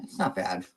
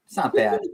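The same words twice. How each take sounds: First: Said in the usual way. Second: Very high, playful falsetto; high squeaky voice. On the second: Pretend. Reacting to the ten-year age gap, squeaky falsetto. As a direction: squeak it out far above your usual pitch.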